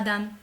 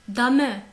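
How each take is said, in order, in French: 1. Le e final est muet. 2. Le e final se prononce.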